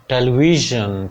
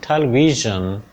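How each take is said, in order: No difference in how they are said.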